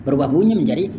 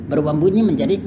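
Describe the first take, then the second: The two takes are said the same way.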